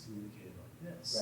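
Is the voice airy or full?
airy. The voice is airy, with open vocal cords. "how do I get that airy tone"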